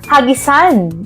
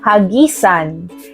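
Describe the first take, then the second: First: The stress is on the last syllable. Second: The stress is on the middle syllable. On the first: A throwing of stones or objects at something. "ito ay nasa diing mabilis" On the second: To give something to someone far away by throwing. "ito ay nasa diing malumay. Dahan-dahan ang pagbigkas"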